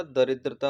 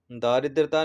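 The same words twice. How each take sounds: First: दरिद्रता said with a short first 'da'; right spelling said aloud: दरिद्रता with a short a; correct form. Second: दारिद्रता said with a long first 'daa'; wrong spelling said aloud: दारिद्रता with a long aa; wrong form. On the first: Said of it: "दरिद्रता होता है". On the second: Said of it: "दारिद्रता नहीं होता". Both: Shown as a demonstration.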